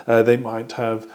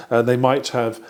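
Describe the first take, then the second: No difference in how they are said.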